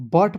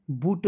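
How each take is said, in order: First: Said in the usual way. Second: "बूट" with a long oo in place of the short a; wrong pronunciation. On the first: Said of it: "बट पढ़ते हैं". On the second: Shown as a demonstration. Teacher shows how not to read it, mispronounced "बूट" with long oo. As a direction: say "बूट" with the u drawn as oo. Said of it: "नहीं पढ़ते हैं".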